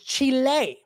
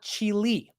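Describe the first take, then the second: First: It is said with a Spanish-style pronunciation. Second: It is said with an English-style pronunciation. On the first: The speaker calls it right. "I told you it was Chile" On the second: The speaker calls it wrong. "not Chile"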